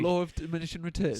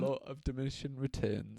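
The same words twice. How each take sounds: First: It is said in a normal voice. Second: It is said in a deep, slow voice.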